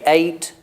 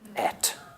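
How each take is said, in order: First: The vowel is long, like in 'bait'. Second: The vowel is short, like in 'bet'. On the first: This is the modern pronunciation. "I say ate" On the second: This is the old-fashioned pronunciation. "old people would say et"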